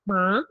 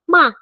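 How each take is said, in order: First: The syllable is said with a rising tone. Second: The syllable is said with a falling tone. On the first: "kalau kedua ma" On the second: "kalau keempat ma"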